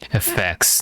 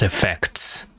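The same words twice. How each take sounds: First: The T sound before the final S is dropped. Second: The T sound before the final S is pronounced. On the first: "they really like Steve skipping tea"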